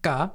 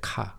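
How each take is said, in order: First: The consonant is tense, with no puff of air. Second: The consonant is aspirated, with a puff of air. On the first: This is how the full word for cafe is said. "You write it as 카, but you always pronounce it as 까" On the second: This is how the abbreviated term is said. "when you abbreviate it to 카공족, you have to pronounce it as 카"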